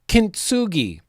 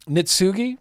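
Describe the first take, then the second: First: The word begins with a 'kin' sound. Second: The word begins with a 'nit' sound. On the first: The speaker calls it right. "it is K I N and not K N I" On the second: The speaker calls it wrong. "how am I saying it?"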